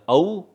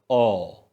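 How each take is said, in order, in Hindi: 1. स्वर सरकता है, जैसे 'ow'। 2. स्वर शुद्ध 'o' ही रहता है। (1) "either ow or o" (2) "either ow or o"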